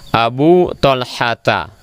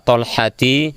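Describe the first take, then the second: First: The name ends in an 'a' vowel. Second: The name does not end in an 'a' vowel. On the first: The speaker calls it right. "Yang benar adalah Abu Talhata" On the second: The speaker calls it wrong. "Jangan dibaca Talhati atau Abu Talhatu, salah"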